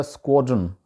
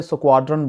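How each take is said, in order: First: स्क्वाड्रन with a rounded "o", skwod-run; corrected pronunciation. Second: स्क्वाड्रन with a long "aa", su-kwaad-ran; local pronunciation. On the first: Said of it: "इसका actual जो तलफ़ुज़ है". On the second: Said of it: "वहाँ पे स्क्वाड्रन बोला जाता है". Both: Shown as a demonstration.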